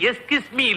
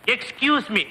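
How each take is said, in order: First: The first word is said without a k sound. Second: The first word is said with a k sound. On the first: The speaker calls it wrong. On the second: The speaker calls it right.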